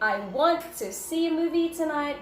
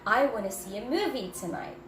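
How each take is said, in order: First: 'Want to' is said fully as two words. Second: 'Want to' is blended quickly into one word. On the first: The speaker calls it wrong. "So do not say" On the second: The speaker calls it right. "but instead I wanna"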